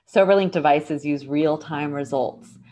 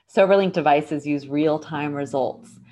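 Both takes have the same delivery.

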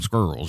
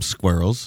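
First: It is said in a Southern American accent. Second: It is said in an English accent.

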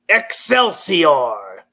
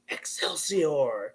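First: It is said loudly. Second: It is said quietly, as if distant.

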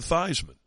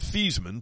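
First: The first syllable rhymes with Heisman. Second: The first syllable does not rhyme with Heisman. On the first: This is the form adopted for an award campaign. "Theismann for the Heisman" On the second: This is the original form of the name. "change his name pronunciation from Theismann"

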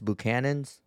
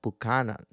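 First: The name has English sounds, including the ch. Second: The name has Spanish-style sounds, with a hard c.

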